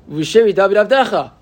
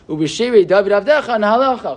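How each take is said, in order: First: The phrase stops with a break after Avdecha. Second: Avdecha runs straight into the next word.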